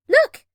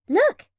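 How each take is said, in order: First: High, loud rising call. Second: Excited call. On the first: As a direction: call out to draw her eye. Spotting a boat, calling louder. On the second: Spotting a boat, calling. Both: Acted.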